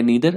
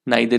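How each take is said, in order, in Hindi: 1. पहला स्वर 'ee' जैसा बोला जाता है। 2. पहला स्वर 'eye' जैसा बोला जाता है। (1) "इसको आप नीदर भी बोल सकते हैं" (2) "नाइदर या नीदर, आप कोई भी बोल सकते हैं"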